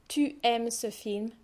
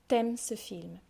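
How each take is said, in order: First: The vowel of tu is fully pronounced. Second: The vowel of tu is dropped. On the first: "drop the U and it turns into T" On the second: "drop the U and it turns into T"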